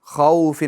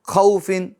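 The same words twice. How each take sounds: First: The vowel is said softly and evenly. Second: The vowel is cut off with a jerk. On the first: The speaker calls it right. "बल्कि नरमी के साथ हमें अदा करना है" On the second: The speaker calls it wrong. "और झटका भी नहीं देना, खौफिन ऐसा भी नहीं करना"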